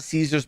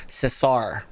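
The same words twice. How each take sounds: First: "Caesar's" said the English way, SEE-zerz; anglicized "Caesar's" with a long ee first. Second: "Cesar" said slowly as seh-SAR; slow, corrective "Cesar", short e and open ah; Spanish pronunciation. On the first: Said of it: "It's Cesar". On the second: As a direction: stress the second syllable of "Cesar", Spanish style. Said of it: "That's how they pronounce it". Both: Shown as a demonstration.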